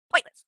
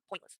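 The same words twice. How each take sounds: First: Emphatic, much louder; louder repeat. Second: Said in the usual way. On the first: Real, not acted. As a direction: punch the repeat out loud. Repeats word, second louder.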